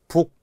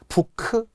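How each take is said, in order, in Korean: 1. 이 단어는 k 자음으로 끝나요. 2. 이 단어는 k 뒤에 모음이 붙어서 끝나요. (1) "아니라 북" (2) "부크가 아니라"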